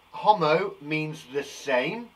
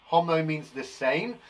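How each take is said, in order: First: Slow, with "homo" stressed; teacher stressing "homo" as a memory aid; slow emphasis. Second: Said in the usual way. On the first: Shown as a demonstration. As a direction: spell out the rule slowly, leaning on "homo". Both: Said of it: "The way to remember".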